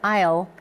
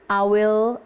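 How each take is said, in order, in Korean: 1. 두 단어가 합쳐져서 짧은 한 음절이 돼요. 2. 두 단어 모두 다 풀어서 따로따로 말해요. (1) "발음할 때 I'll" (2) "I will인데"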